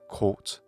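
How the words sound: It is said in a British accent. "In British English"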